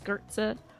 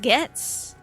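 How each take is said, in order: First: The name is said as 'Gertza'. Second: The name is said as 'Gets'. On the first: The speaker calls it wrong. "I thought maybe it was Gertza" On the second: The speaker calls it right. "It's pronounced Gets"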